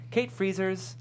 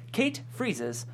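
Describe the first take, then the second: No difference in how they are said.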